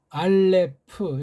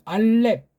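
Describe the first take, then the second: First: The final p is a separate syllable. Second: The final p closes the second syllable. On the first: It follows the Western naming. The speaker calls it wrong. "알레프 이렇게 명료하게 하는데 이것도 서양식 이름이죠" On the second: It follows the speaker's own reading. The speaker calls it right. "우리는 이게 받침들으니까 알렙"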